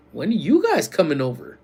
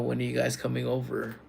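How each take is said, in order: First: "you" punched high and loud; stress on "you". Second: Said in the usual way. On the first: Real, not acted. Streamer turns a viewer's question back, "you" stressed high.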